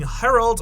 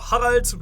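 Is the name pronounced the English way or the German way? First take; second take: English; German. First: The name is said with an English pronunciation. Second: The name is said with a German pronunciation.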